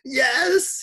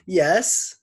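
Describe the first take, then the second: First: It is said like a donkey with tonsillitis. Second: It is said in a pleasant Scottish gentleman's voice.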